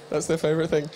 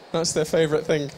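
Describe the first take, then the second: No difference in how they are said.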